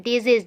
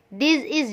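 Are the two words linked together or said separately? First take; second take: linked; separately. First: The two words are joined smoothly together. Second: The two words are said with a break. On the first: The speaker calls it right. "gitu cara bacanya ya" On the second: The speaker calls it wrong. "Jangan jangan dipisah. This is jangan"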